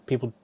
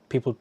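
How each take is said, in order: Both takes have the same delivery.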